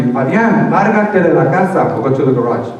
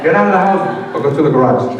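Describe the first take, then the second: First: Mom's order. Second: Said in the usual way. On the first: Retold or imitated. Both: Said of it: "she told me".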